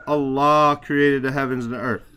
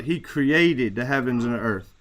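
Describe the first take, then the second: First: Allah hit hardest, the rest of the sentence falls away; stress on Allah. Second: Created carries the weight, He stays light; stress on created. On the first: Teacher to student, showing the stress lands on Allah. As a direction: lean on the word Allah as the one who did it. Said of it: "You're emphasizing Allah there". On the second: Teacher to student, showing the stress lands on created. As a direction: punch the word created, not the subject. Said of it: "emphasizing here the fact that he's the creator". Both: Shown as a demonstration.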